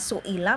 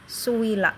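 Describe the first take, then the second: First: The middle sound is a glottal stop. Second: The middle sound is a w sound. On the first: "Yang asalnya" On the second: "diganti wawu di situ"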